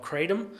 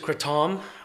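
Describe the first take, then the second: First: The word is said the Western way. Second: The word is said the Thai way. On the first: This is the name used in the West. "we hear a lot of it in the Western world called kratom" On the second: This is the name used in Thailand. "it's referred to as kratom uh, in Thailand"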